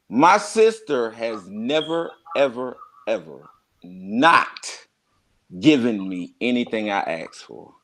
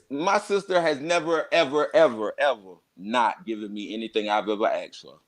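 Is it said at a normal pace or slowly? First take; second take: slowly; normal. First: It is said more slowly. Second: It is said at a normal pace.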